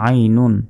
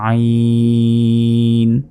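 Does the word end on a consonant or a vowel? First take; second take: vowel; consonant. First: The word ends with the full -un ending. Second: The word stops on a bare final consonant.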